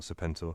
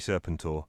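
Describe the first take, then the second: First: It does not begin like 'serpent'. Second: It begins like the English word 'serpent'. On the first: The speaker calls it wrong. "not Serpentor" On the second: The speaker calls it right. "because it's got the word serpent in it, so it should be Serpentor"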